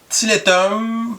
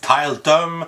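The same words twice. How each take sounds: First: The name is pronounced the French way. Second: The name is pronounced the English way.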